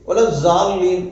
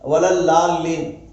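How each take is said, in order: First: The key consonant is said like a j. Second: The key consonant is said like an l. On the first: "Urdu பாஷையினுடைய இது அப்படித்தான் இருக்குது" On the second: "Tamil பேசுகிறவங்க என்ன செய்கிறாங்க"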